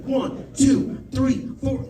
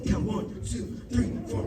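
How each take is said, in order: First: Dispatcher counting off the compressions, raised; counting aloud. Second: Softer counting under the breath; quiet counting. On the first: Dispatcher counts CPR beats for the caller, firm count. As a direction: call the count steadily over the phone. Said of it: "He's like". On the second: Comic counts to himself while doing CPR, softer. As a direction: mouth the count while pushing. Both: Retold or imitated.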